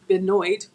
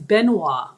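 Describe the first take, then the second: First: The name is said with an English pronunciation. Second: The name is said with a French pronunciation. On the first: The speaker calls it wrong. "which is how I've been incorrectly pronouncing it" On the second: The speaker calls it right. "It's Benoit. Oh, it's French"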